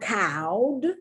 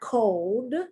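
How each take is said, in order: First: The vowel sounds like the one in cow. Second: The vowel is a long o sound. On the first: "It's not cowed" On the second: "It's not cold"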